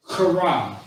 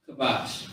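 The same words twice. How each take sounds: First: Kara opened with a hard throat scrape; guttural, pushed "Kara"; forced throaty sound. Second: Kabash softly, with a light plain k; soft, unforced "kabash". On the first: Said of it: "you're saying it with force". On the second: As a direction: let "kabash" out gently, no throat scrape. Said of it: "not really saying it with too much force". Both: Shown as a demonstration.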